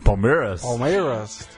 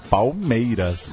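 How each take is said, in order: First: It is said with a foreign, non-Brazilian accent. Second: It is said with a Brazilian Portuguese accent. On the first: "Como que os gringos falam Palmeiras?" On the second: "a gente fala, né?"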